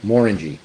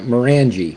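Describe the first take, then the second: First: It is said rhyming with 'orangey'. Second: It is said not rhyming with 'orangey'. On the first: The speaker calls it right. "Just like an orangey" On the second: The speaker calls it wrong. "it's not Morangie"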